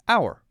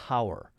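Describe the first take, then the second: First: The word begins directly with the vowel sound. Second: The word begins with an audible h sound. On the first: The speaker calls it right. "The H is silent. We pronounce it as hour" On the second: The speaker calls it wrong. "We don't pronounce it as hour"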